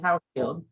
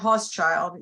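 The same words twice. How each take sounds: First: The name is said in its owner's pronunciation. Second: The name is said as its spelling suggests. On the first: This is how its owner actually says it. "even though I pronounce it Hauschild" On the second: This is how it looks written down. "So it looks like Hauschild"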